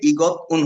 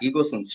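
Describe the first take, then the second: First: A t sound, then a break before 'un'. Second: An s sound linked smoothly into 'un'. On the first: The speaker calls it wrong. "ইগত উন হবে না" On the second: The speaker calls it right.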